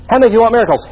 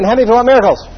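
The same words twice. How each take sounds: First: Said in the usual way. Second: Quick, pressing repeat of "miracles"; faster repeat. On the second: Shown as a demonstration. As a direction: rush the question again to push them. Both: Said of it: "Ask again".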